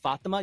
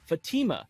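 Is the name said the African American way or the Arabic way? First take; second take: Arabic; African American. First: It is pronounced the original Arabic way. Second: It is pronounced the African American way. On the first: "instead of Fatima" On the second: "they pronounce them according to their culture"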